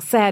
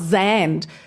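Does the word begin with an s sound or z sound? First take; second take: s; z. First: The word begins with a soft s sound. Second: The word begins with a buzzing z sound. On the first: The speaker calls it right. "it's with a soft S, like sand" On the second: The speaker calls it wrong. "not Zand"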